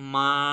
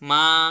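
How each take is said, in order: First: The pitch stays high and level throughout. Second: The pitch rises from middle to high. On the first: "high and flat" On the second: "আমি আমার ভয়েসের middle level থেকে হাই লেভেলে উঠে গেলাম।"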